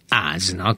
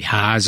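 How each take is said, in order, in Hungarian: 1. A szó magánhangzóval kezdődik, h nincs. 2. A szó elején hallható h hang van.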